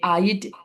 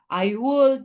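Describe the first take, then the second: First: It is said as one short contracted syllable. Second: It is said as two full separate words. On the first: The speaker calls it wrong. "kalau ucapannya itu jadi I'd ... Jangan" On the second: The speaker calls it right. "tetap ucapkan panjang"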